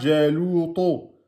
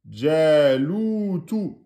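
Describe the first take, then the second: First: The last syllable is said heavy and dark. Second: The last syllable is said thin and light. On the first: The speaker calls it wrong. "Ne dites pas Jalouto" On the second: The speaker calls it right. "Tout en aminci"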